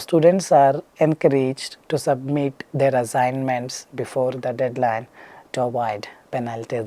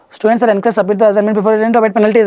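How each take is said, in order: First: The sentence is spoken very slowly. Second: The sentence is spoken very fast. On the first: "Next is going very slow" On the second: "Speaking full fast"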